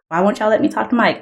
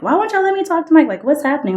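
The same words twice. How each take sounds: First: Said in the usual way. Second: The upset version, pushed up and rushed; upset demand. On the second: Retold or imitated. To her parents, a high, fast upset demand. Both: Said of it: "I was upset".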